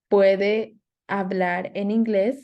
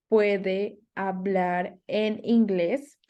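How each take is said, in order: First: Said in the usual way. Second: Spoken slowly, word by word. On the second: Shown as a demonstration. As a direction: say it slowly so learners can follow. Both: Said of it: "So the question is".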